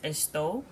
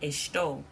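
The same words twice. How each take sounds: First: It is said without a Rio de Janeiro accent. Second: It is said with a Rio de Janeiro accent.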